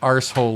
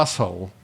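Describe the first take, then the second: First: The R sound is strongly pronounced. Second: The R sound is barely pronounced. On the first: "like we were saying it" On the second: "the R is there, but it's not there"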